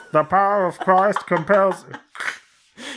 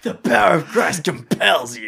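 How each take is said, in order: First: Slow high megaphone call; drawn out, high and slow, over a loudspeaker; through a megaphone. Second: Loud high booming call; through a megaphone. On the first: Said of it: "He's like". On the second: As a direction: boom it out like a police megaphone. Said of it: "He's got a megaphone". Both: Pretend.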